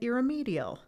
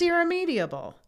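First: The word ends with a short '-al' sound. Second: The word ends with an added '-able' sound. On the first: The speaker calls it wrong. "I was also pronouncing it irremedial" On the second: The speaker calls it right. "It's irremediable"

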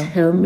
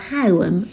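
First: The word is said as one plain syllable. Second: The word is drawn out into two syllables.

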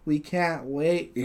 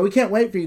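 First: It is said flatly, with the pitch dropping. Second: It is said with some emphasis and emotion. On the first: The speaker calls it wrong. "Sounds like" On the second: The speaker calls it right. "you could put just a little bit of emphasis"

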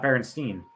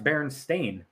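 First: The last syllable sounds like 'stine'. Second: The last syllable sounds like 'stain'. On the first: The speaker calls it wrong. "not Berenstein" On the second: The speaker calls it right. "It's pronounced Berenstain"

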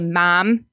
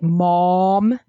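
First: It has a nasal local vowel. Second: It has an open, rounded Californian vowel.

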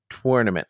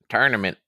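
First: The word is drawn out with an elaborate pronunciation. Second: The word is said in a plain, common pronunciation. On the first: It imitates another person's fancy pronunciation. "He goes all in and says tournament" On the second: It is the speaker's own ordinary pronunciation. "I'm on the more hackneyed end of the pronunciation"

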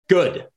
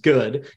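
First: The word is said curtly, with a flat final stop. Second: The word is said in a plain, neutral way. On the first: The speaker is unaffected and spitefully dismissive. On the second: Things are simply fine.

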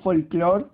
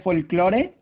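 First: The word is pronounced with English sounds. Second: The word is pronounced with Spanish sounds. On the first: "se dice en inglés" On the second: "se dice en español"

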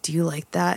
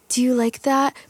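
First: It is said in a sexy, confident tone. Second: It is said in an insecure, unsexy tone.

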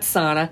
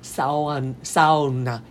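First: Not every letter of the word is sounded. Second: Every letter of the word is clearly sounded. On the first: The speaker calls it wrong. "not sauna" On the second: The speaker calls it right. "every letter is enunciated"

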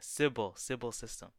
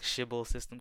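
First: The first word starts with a plain 's' sound. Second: The first word starts with a 'sh' sound.

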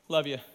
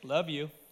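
First: It is said casually and lightly. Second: It is said seriously and sincerely.

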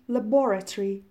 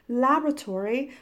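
First: The word is said in a British pronunciation. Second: The word is said in an American pronunciation. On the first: "British pronunciation is laboratory" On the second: "American pronunciation is laboratory"

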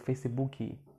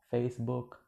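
First: An extra 'ee' vowel is added after the final consonant. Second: The word ends on the consonant with no added vowel. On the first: The speaker calls it wrong. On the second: The speaker calls it right.

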